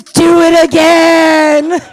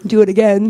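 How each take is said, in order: First: High, slow, drawn-out bellow; hammed-up roaring plea; shouted mock demand. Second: Said in the usual way. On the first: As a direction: bellow it like an ecstatic lover. Boyfriend's demand, acted at full volume.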